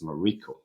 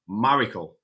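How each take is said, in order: First: The stress is not on the first syllable. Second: The stress is on the first syllable. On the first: "So I keep fighting with myself, and oh, it's Mariko" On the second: "the tonic, right? ... would be the, the the first one"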